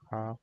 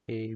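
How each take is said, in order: First: The letter is named with German pronunciation. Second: The letter is named with English pronunciation. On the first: "in German, it's actually pronounced as A" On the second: "we don't say A"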